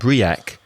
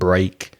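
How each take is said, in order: First: The word is spoken as two separate syllables. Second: The word is spoken as one single syllable. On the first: The speaker calls it wrong. "when you read this as a Spanish speaker, you might say" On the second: The speaker calls it right. "the actual pronunciation of those words exactly the same"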